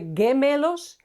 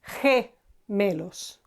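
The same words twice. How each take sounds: First: It starts with a hard g sound. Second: It starts with a breathy h sound. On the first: The speaker calls it wrong. "We don't say gemelos" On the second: The speaker calls it right. "we say he"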